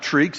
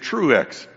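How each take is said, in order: First: The name has a long ee vowel. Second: The name has an oo vowel then eh. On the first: The speaker calls it wrong. "My name is not Treex" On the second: The speaker calls it right. "it is Truex"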